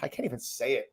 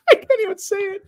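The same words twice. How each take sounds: First: Said in the usual way. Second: Much higher, squeaky laughing take on I can't even say it. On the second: Real, not acted. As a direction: crack up while trying to say it.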